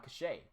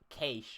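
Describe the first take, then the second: First: It is said with two syllables, ending in 'ay'. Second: It is said as one syllable rhyming with 'hay'. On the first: This is the form used in Britain. "most people in, like, Britain and whatnot will say uh, cachet" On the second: This is the form used in Australia. "like K A Y S H"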